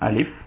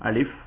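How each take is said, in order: Both takes have the same delivery.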